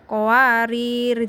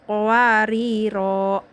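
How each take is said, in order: First: The word ends on a final r consonant. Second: The word ends with an added o vowel. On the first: The speaker calls it wrong. "Jangan sampai salah, jangan kowarir" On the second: The speaker calls it right. "dibaca ketika wakof, kowariro gitu"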